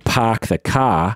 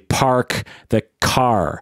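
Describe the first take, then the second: First: The R sounds are dropped, Boston style. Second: The R sounds are clearly pronounced. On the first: "like the classic Boston accent" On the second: "You're supposed to say park the car"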